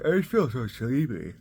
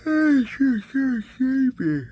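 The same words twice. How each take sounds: First: Said in the usual way. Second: Whiny sleepy moan. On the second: Acted. Dad on camera, whining that he is so tired, high loud whine.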